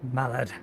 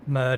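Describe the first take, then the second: First: It is said with two syllables, like 'mallard'. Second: It is said as one short syllable, 'murd'. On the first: The speaker calls it wrong. "That's not quite the right pronunciation" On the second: The speaker calls it right. "I think it's closer to Murd"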